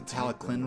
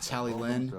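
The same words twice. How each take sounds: First: The double L sounds like a K sound. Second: The double L sounds like a plain L. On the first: The speaker calls it right. "a C or a K sound, like a K sound. So it's actually like the Talyllyn Railway" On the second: The speaker calls it wrong. "and not the Talyllyn, which I which is what I thought it was called"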